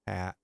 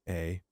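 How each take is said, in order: First: The letter is said with an 'ah' vowel. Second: The letter is said with an 'ay' vowel. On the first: This is the Polish way to say the letter. "So A and ah" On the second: This is the American way to say the letter. "the letter A has an American pronunciation"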